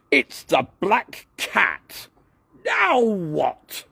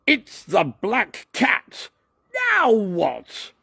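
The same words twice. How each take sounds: First: Much higher, slow shout. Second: Much higher, slow, staged alarm; rehearsed line. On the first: A narrator's reading. Douglas shouting his scene line on camera, high and slow. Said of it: "shouted Douglas". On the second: Shown as a demonstration. Douglas showing how his film line goes, high and slow. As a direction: act it out for the scene. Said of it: "Then I say".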